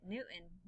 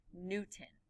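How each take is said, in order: First: Newton with the T dropped, said "Newn"; informal Newton. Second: Newton with a crisp T, "New-ton"; articulated Newton. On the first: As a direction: swallow the T in Newton. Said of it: "But when I say it". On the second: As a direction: sound out the T in Newton clearly. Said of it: "articulate the word". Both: Shown as a demonstration.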